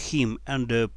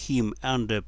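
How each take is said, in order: Both takes have the same delivery.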